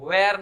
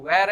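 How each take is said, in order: First: वेयर as hway-ar, two syllables; wrong pronunciation. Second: वेयर squeezed into one syllable, wair; correct pronunciation. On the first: Teacher rejecting a mistake, wrong pronunciation of वेयर. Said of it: "वो वेयर नहीं है". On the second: Teacher giving the right form, one-syllable वेयर. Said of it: "वो वेयर है". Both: Shown as a demonstration.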